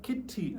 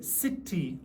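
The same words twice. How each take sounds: First: "kitty" begun with a hard K; hard K sound. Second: "city" begun with an S sound; soft C as S. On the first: Teacher showing the wrong reading of a C, hard K in "kitty". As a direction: say "kitty" with a K at the front. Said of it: "it's not kitty". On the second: Teacher correcting how C is read, S sound in "city". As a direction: say "city" with a hissed S, not a K. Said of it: "city as an S sound". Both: Shown as a demonstration.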